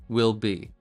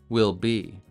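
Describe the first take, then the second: Both takes have the same delivery.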